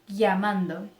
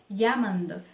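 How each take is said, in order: No difference in how they are said.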